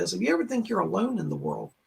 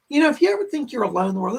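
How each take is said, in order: First: Said in the usual way. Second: Quick, rushed and a bit louder; fast. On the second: Real, not acted. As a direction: rattle it off eagerly. Repeats the line for everybody.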